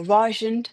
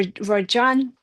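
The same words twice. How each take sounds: First: "Rajan" with stress up front and a reduced ending, RAH-zhun; alternative name pronunciation. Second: "Rajan" with a long AH in the second syllable, ra-ZHAHN; unsure name pronunciation. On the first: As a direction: say "Rajan" as RAH-zhun, weak second vowel. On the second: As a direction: say "Rajan" with the end drawn open as "zhahn". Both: Shown as a demonstration. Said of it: "never quite know how you say that name".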